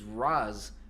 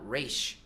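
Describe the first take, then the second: First: The name ends with a z sound. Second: The name ends with an sh sound. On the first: The speaker calls it right. "they said it was Raz" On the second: The speaker calls it wrong. "not Raish"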